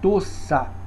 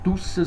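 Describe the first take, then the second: First: The first vowel is pronounced as an open 'o'. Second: The first vowel is pronounced as a 'u'. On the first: This is the original standard form. The speaker calls it right. "Seria o correto" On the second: This is the everyday spoken form. The speaker calls it wrong. "Tussa seria essa licenciosidade que nós usamos"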